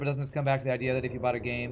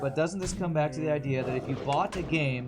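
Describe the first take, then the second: First: It is read at a normal, quicker pace. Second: It is read at a slower pace.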